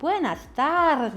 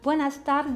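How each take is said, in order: First: The stress falls on the first syllable, tar. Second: The stress falls on the last syllable, des.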